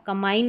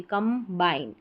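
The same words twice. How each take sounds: First: कंबाइन as "kamain", no b; wrong pronunciation. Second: कंबाइन as "kam-bain", b clear; b pronounced. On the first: Teacher showing what to avoid, कंबाइन without b. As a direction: run m into the vowel in कंबाइन. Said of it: "अब कंबाइन नहीं बोलते". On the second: Teacher giving correct form, कंबाइन with b sounded. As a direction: split कंबाइन into कम and बाइन. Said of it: "भी पढ़ा जाएगा". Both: Shown as a demonstration.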